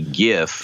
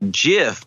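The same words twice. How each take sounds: First: It begins with a hard G sound. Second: It begins with a soft G sound. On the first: The speaker calls it right. "the G is actually a hard G" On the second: The speaker calls it wrong. "I was saying GIF"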